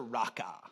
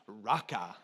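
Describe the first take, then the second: First: Low, falling "Raka"; "Raka" with a drop at the end. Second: Deep lion-king "Raka"; mock Mufasa "Raka"; Mufasa-style Raka. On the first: Shown as a demonstration. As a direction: say "Raka" low, the R rolled a little. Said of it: "You just say that with me". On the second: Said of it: "some of you said it like Mufasa".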